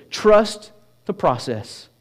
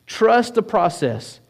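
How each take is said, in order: First: Slow, weighty, each word set apart; slow emphatic statement. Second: Slow and higher, leaning on "Trust"; "Trust" pitched up and stretched, then fall; slower lifted repeat. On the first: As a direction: lay it down slowly like a headline. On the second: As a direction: repeat it slowly, lifting it so it sinks in. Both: Shown as a demonstration. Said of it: "the message that God has for us today is simply this".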